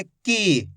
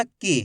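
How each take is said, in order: First: की with the ii held long; teacher showing the long vowel sound. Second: की clipped with a short i; teacher showing the short vowel sound. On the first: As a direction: stretch out the vowel in की. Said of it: "तो इसको खींच के पढ़ेंगे". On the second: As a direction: say की quickly, barely holding the vowel. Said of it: "यानी कि कम खींच के". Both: Shown as a demonstration.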